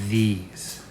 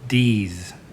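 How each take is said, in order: First: The word uses a voiced th sound. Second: The th sound is replaced by another sound. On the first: The speaker calls it right. "So it should be these" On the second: The speaker calls it wrong. "That's not right"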